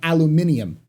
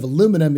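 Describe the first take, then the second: First: The word is said a non-American way. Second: The word is said the American way. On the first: The speaker calls it wrong. "not aluminium" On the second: The speaker calls it right. "American pronunciation of aluminum is correct"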